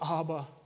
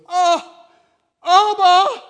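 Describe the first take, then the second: First: It is said softly and calmly. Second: It is cried out loudly. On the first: A serene, composed prayer. The speaker calls it wrong. "It wasn't Abba" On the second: A desperate cry of agony. The speaker calls it right. "It was"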